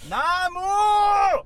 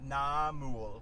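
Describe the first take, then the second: First: The word is said loudly, almost shouted. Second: The word is said at normal volume.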